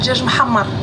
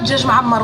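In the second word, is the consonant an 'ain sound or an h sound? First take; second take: h; 'ain. First: The second word has a breathy h consonant. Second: The second word has a throaty 'ain consonant. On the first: The speaker calls it right. "on dit Djaj Mahammar. pas avec un trois, avec un H" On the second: The speaker calls it wrong. "On dit pas Djaj Mahammar"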